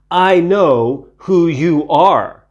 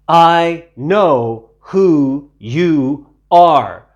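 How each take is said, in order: First: Slow and loud, a touch higher; taunting demon. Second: Very slow, loud, strange demon voice; menacing demon. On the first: Unclean spirit taunting Jesus, slow sly threat. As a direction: tease it like a threat to tell. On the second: Unclean spirit telling Jesus it knows him, slow menacing drawl. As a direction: draw it out like a threat. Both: A narrator's reading.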